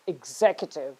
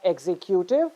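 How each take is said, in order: First: "executive" as ig-ZEK-yuh-tiv; correct stress. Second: "executive" as ex-ee-KYOO-tiv; wrong stress. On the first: Teacher correcting students, "executive" stressed on ZEK. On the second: Teacher showing the mistake, "executive" stressed on KYOO. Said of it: "It's not". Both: Shown as a demonstration.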